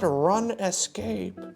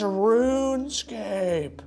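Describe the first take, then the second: First: The first part has a short vowel, like run. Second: The first part has a long vowel, like rune. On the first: The speaker calls it wrong. "not Run Escape" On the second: The speaker calls it right. "it's RuneScape"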